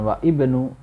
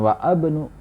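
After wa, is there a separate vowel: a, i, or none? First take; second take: i; a. First: A separate i vowel is sounded before bnu. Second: A separate a vowel is sounded before bnu. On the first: "bukan wa ibnu" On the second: "Bukan wa abnu"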